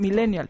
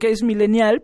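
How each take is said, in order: First: The stress falls on the syllable with e. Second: The stress falls on the final syllable. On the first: "le pones acento en la E" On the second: "está bien decir, ok, es millennial"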